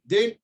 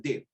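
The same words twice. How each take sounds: First: DEAL rising as a question; questioning offer. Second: DEAL as a short settled statement; firm acceptance. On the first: Gym owner offering sponsorship, DEAL asked with a rise. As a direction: lift the end of DEAL, seeking agreement. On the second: Young bodybuilder accepting sponsorship, DEAL stated as settled. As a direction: say DEAL without the questioning rise. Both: Retold or imitated.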